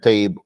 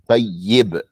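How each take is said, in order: First: The doubled ya is rushed and unclear. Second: The doubled ya is held with a clear i. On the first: The speaker calls it wrong. "we kind of brush through" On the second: The speaker calls it right. "It's a kasra"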